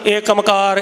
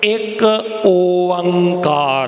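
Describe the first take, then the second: First: The two words are run together into one. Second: The two words are said clearly and separately. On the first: The speaker calls it wrong. "पर असी एकमकार इकमकार इकी ओंकार बहुत कुछ बोलते हैं" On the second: The speaker calls it right. "ਇਹਦਾ स्पष्ट उच्चारण"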